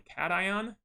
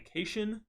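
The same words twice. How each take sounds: First: The word begins with the sound 'cat'. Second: The word begins with a different sound. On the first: The speaker calls it right. "think of, you know, an actual cat when you're pronouncing this" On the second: The speaker calls it wrong. "not a cation"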